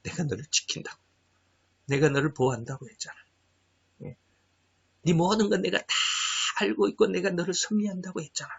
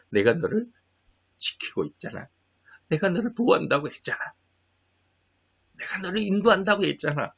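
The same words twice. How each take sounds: First: A hint of God's quiet reassurance; lightly voiced, hushed comforting God; God speaking softly. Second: A hint of God's quiet reassurance; soft, gentle voice of God comforting; God speaking softly. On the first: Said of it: "이 말씀 무지무지 많이 주셔요". (하나님이 조용히 안심시키듯 말하는 목소리) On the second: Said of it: "그래서 하나님이". (하나님이 조용히 다독이듯 말하는 목소리)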